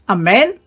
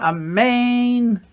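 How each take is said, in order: First: The second vowel is short. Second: The second vowel is a long E. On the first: "It can be amen" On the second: "it's a longer E sound"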